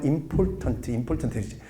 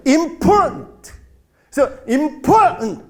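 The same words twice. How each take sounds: First: "important" said flat as 임폴탄트, each syllable even; "important" with equal beats and an added final vowel; Korean pronunciation. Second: "important" with the middle syllable hit high and loud; "important" punched hard on POR, ending swallowed; stress on POR. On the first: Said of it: "한국말로 하면". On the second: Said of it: "강세가 제일 중요해". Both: Shown as a demonstration.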